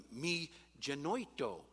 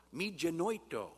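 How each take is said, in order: First: Careful Greek "me genoito", first syllable leaning; Greek pronunciation. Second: "me genoito" said again with a firmer "me" and a j sound; Greek pronunciation, repeated. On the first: Preacher sounding out Greek phrase for congregation, careful pronunciation. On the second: Preacher repeating the Greek phrase for congregation, firmer. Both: Shown as a demonstration.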